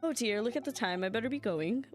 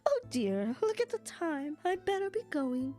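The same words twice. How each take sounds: First: It is said in his normal voice. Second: It is said in an old lady voice.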